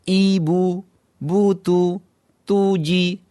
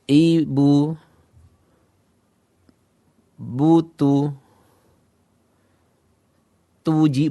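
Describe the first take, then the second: First: The syllables flow smoothly without hesitation. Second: The syllables come slowly with hesitant gaps. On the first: The reader has mastered the letters. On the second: The reader is still thinking about the letters.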